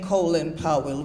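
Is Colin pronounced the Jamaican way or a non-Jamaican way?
non-Jamaican. Colin is pronounced the non-Jamaican way. This is how people outside Jamaica say it. "we're not saying Colin Powell. We will never say that"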